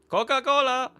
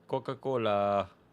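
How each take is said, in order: First: It is said loudly. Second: It is said quietly.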